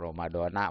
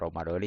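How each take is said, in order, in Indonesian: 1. Kata itu berakhir dengan vokal 'ah'. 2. Kata itu berakhir dengan vokal 'ee'. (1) "Mau Ramadona" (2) "itu yang benar yang Ramadoni"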